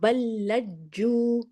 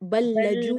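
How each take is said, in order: First: The j sound is held and doubled. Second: The j sound is short and single. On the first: The speaker calls it right. "फिर जू का भी पढ़ना है" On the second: The speaker calls it wrong. "बल्लजू नहीं"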